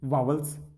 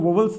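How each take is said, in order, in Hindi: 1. पहला स्वर 'aa' जैसा बोला जाता है। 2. पहला स्वर 'o' जैसा बोला जाता है।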